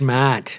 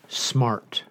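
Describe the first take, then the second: First: It is said in a New England accent. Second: It is said with a standard r-ful accent.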